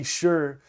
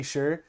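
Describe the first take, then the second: First: Sure said flat and final, falling; a dismissive falling sure. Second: Sure? lifted into a question at the end; an incredulous rising sure?. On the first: Retold or imitated. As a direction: drop the pitch on sure like a curt brush-off. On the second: Shown as a demonstration. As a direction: let sure rise like a puzzled question. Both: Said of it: "getting hit with a K, sure".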